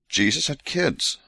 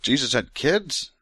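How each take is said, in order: First: Dry, slow declaration of the discovery; amazed statement. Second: Incredulous question. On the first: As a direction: state it as a shocking fact. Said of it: "I did not know that". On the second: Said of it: "What in the world?". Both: Real, not acted.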